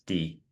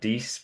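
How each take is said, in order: First: The word ends on the vowel, no s. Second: The word ends with an s sound. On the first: The speaker calls it right. "it's D" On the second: The speaker calls it wrong. "those that know French might want to put a s"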